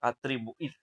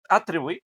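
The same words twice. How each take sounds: First: The stress is on the last syllable. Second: The stress is on the first syllable. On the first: The speaker calls it right. "la última" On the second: The speaker calls it wrong. "no, ¿verdad?"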